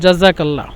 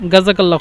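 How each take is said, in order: First: The word begins with a j sound. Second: The word begins with a hard g sound. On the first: This is the original form of the word. "এখানে মূলত জাজাকাল্লা" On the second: This is how Egyptians say it. "মিশিরা কিন্তু মাঝে মধ্যে মানে দোয়ার ক্ষেত্রে ব্যবহার করে যে গাজাকাল্লা খয়ের"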